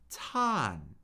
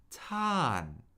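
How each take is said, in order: The two takes are said the same way.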